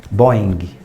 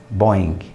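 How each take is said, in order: No difference in how they are said.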